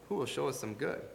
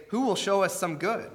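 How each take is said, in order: First: Softer, distant repeat of the question; a softer repeat trailing off; softer echo. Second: Said in the usual way. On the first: Retold or imitated. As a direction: let the plea fade away like an echo. Echoing the enemies' plea.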